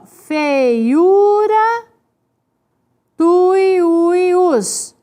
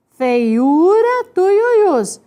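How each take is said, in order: First: "Feiura" and "tuiuius" slowly drawn out; stretched syllables. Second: Said in the usual way. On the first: Shown as a demonstration. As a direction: sound out "Feiura", pause, then "tuiuius". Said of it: "Então, é assim".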